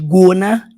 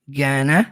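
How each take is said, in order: First: The first vowel is more closed. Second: The first vowel is more open. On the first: The speaker calls it wrong. "Não é exatamente gonna" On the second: The speaker calls it right. "É mais aberto"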